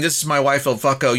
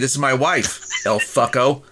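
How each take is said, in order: First: There is little or no pause before the name. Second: There is a noticeable pause before the name. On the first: "instead of saying" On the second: "by putting a little pause there"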